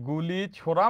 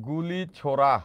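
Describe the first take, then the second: The two takes are said the same way.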